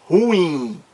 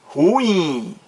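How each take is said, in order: The two takes are said the same way.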